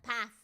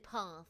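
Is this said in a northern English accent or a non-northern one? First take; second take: northern; non-northern. First: It is said in a northern English accent. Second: It is said in a non-northern English accent. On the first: "This is how you know that I'm from the north. I say" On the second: "I don't say path"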